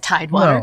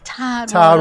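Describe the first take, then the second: First: It is said in a plain, neutral accent. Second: It is said in a drawn-out Southern accent. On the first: This is not how locals say it. The speaker calls it wrong. "we don't we don't say Tidewater" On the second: This is how locals say it. The speaker calls it right. "We say Tidewater"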